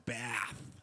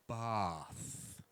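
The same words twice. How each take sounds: First: It is said with a general American vowel. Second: It is said with a Boston, England-influenced vowel.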